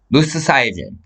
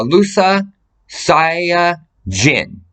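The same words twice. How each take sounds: First: Said in the usual way. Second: Each syllable drawn out slowly; "Lusa Saya Jin" stretched syllable by syllable, very slow; slow spelled-out name. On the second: Shown as a demonstration. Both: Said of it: "And I'll give you her name".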